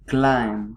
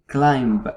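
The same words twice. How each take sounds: First: No b sound is heard at the end. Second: A b sound is heard at the end. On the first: The speaker calls it right. "you say climb" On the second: The speaker calls it wrong. "you don't say climb"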